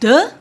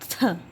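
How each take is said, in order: First: The th sound is voiced, with the throat buzzing. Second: The th sound is voiceless, only air blown out. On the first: "It's a voice sound" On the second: "the voiceless sound is"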